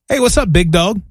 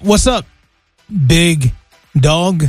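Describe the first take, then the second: First: It is said at a moderate pace. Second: It is said very slowly.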